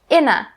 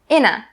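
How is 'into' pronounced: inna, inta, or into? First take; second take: inna; inna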